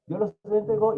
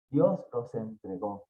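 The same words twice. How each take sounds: First: Said in the usual way. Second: "Dios los entregó" lower and slow, weighty; solemne énfasis. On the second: Acted. ("Dios los entregó" grave y lento) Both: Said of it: "en tres ocasiones".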